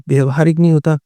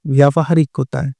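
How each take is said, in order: First: व्यवहारिक with short first vowel, vya-va-haa-rik; wrong form said. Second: व्यावहारिक with long vyaa, vyaa-va-haa-rik; correct form said. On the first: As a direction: say व्यवहारिक flatly as the mistaken spelling. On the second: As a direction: stretch the व्या in व्यावहारिक. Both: Shown as a demonstration.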